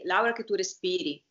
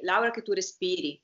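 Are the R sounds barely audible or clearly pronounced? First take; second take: barely audible; barely audible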